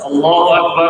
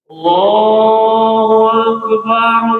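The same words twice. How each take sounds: First: It is said fairly fast. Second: It is said slowly and drawn out.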